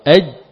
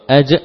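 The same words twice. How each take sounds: First: The final j is held and stopped. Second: The final j is released with a bounce. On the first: The speaker calls it right. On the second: The speaker calls it wrong.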